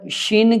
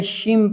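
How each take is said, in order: First: "शिन" ending on a short n. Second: "शिम" ending on an m. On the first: Teacher naming the reading to avoid, n ending. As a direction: close "शिन" with the tongue, plain n. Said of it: "शिन की बजाय शिम". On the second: Teacher naming the correct reading, m ending. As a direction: close the lips at the end of "शिम". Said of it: "शिम पढ़ेंगे". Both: Shown as a demonstration.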